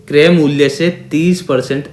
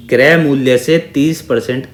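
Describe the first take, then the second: No difference in how they are said.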